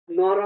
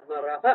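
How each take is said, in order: First: Said in the usual way. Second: নরহ ending in an aspirated "ha"; visarga. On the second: Shown as a demonstration. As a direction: sound the final h of নরহ as a short puff. (নরহ-র শেষে বিসর্গের হ স্পষ্ট) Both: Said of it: "নর বললে হবে না".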